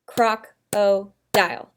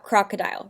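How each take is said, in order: First: "Croc-o-dile" slowly, split into three separate beats; syllable by syllable. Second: Said in the usual way. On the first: Shown as a demonstration. Teacher clapping out a word for pupils, "Croc-o-dile" in three slow, separate syllables. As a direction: clap out "Croc-o-dile" with a pause after each syllable. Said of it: "clap out crocodile so I can break it into syllables". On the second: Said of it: "I'm gonna clap out crocodile".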